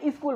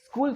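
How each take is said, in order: First: It is said with a local Chhattisgarhi pronunciation. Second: It is said with a standard English pronunciation. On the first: "आपने बोलने की कोशिश की और आपने स्कूल बोल दिया" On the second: "आपने स्कूल सुना"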